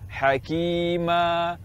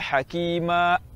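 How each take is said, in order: First: The final vowel is released openly without closure. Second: The final vowel is cut off by a glottal stop. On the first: The speaker calls it right. "Yang tepat kita baca hakima. Suara lepas tanpa menutup pita suara" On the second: The speaker calls it wrong. "jangan dibaca hakima. Hakima berarti menambah hamzah"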